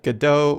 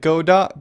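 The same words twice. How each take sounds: First: The name does not end like 'robot'. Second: The name ends like the word 'robot'. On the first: It follows the name from the play. "Other people like to pronounce it Godot or Gado because of the story" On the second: It follows the developers' own pronunciation. "because their logo is a robot, and they rhyme"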